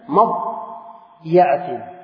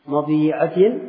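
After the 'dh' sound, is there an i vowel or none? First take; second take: none; i vowel. First: The dh has no vowel; ya takes an a vowel. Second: The dh sound is followed by an i vowel. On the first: "wasukun dha wa fathhi alya" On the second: "dikasir dha waliya"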